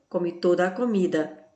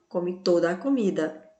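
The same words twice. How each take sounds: Both takes have the same delivery.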